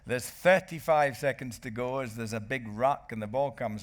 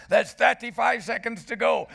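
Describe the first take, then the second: First: Said in the usual way. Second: Shouted far higher and louder; commentary shout. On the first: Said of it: "my commentary went". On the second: Retold or imitated. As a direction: yell "thirty-five" like live commentary. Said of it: "and my commentary went".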